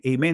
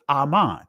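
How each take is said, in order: First: The second syllable sounds like 'men'. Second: The second syllable sounds like 'man'. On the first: This is the Greek form of the word. The speaker calls it wrong. "Amen is the Greek pronunciation" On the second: This is the original form of the word. The speaker calls it right. "Aman is actually the proper pronunciation of the word Amen"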